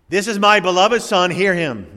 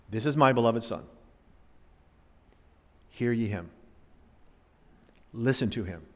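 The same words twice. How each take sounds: First: Loud, higher booming call from heaven; the Father's voice booming over the mountain; thundering voice of God. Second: Low, hushed and reverent; quiet reverent reading of the Father's words; hushed voice of God. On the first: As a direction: let it thunder down from the sky. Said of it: "thunders down". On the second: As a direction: read it softly, in awe. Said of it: "The voice of God, the Father". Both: Acted.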